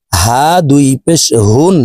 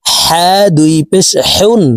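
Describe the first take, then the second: First: হা and হুন with a plain h from the throat's start; small ha, deep throat. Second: হা and হেউন with a tight h from mid-throat. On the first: Teacher contrasting two ha letters, open deep-throat হুন. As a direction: let the h of হুন come open from the bottom of the throat. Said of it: "এই হার উচ্চারণ হলকের শুরু থেকে". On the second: Teacher contrasting two ha letters, mid-throat হেউন. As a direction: squeeze the h of হেউন from the middle of the throat. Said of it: "হা হরফের উচ্চারণ হলকের মধ্যখান থেকে". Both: Shown as a demonstration.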